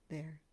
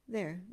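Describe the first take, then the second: First: It is said with lower, dropped energy. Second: It is said with normal energy.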